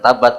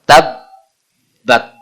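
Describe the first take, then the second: First: The b sound is short and single. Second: The b sound is doubled and held. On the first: The speaker calls it wrong. "salah kalau dibaca tabat" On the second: The speaker calls it right. "pada huruf ba ada yang namanya tasydid"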